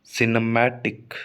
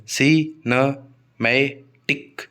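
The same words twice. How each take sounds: First: Said in the usual way. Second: सिनेमैटिक very slowly in four parts, si-na-mai-tik; syllable by syllable. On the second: Shown as a demonstration. Teacher showing the word has four syllables, सिनेमैटिक syllable by syllable as si-na-mai-tik. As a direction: count out सिनेमैटिक as si, na, mai, tik with clear gaps. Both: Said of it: "इसमें चार syllable हैं".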